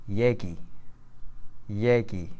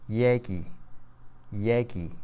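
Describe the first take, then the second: No difference in how they are said.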